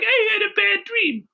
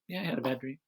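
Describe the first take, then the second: First: It is said in a scared, upset way. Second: It is said in a calm, relaxed way.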